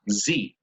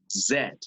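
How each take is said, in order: First: The letter is said the American way, as zee. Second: The letter is said the British way, as zed. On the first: "en inglés de Estados Unidos" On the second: "En inglés británico"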